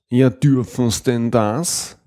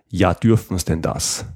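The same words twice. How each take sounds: First: It is said in a marked, expressive tone. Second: It is said in a plain, neutral tone.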